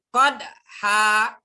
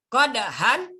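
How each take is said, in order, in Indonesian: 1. Kata ini berakhir dengan vokal a panjang. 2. Kata ini berakhir dengan bunyi n.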